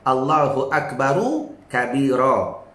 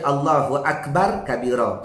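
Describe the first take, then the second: First: A short u vowel follows Akbar. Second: No vowel follows Akbar. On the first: The speaker calls it right. "yang saya baca Allahu Akbaru kabira" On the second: The speaker calls it wrong. "Jangan dibaca Allahu Akbar kabira"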